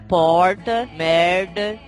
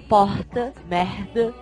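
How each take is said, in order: First: The R is pronounced in a São Paulo style. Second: The R is pronounced in a Florianópolis style. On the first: "São Paulo é" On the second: "em Florianópolis é"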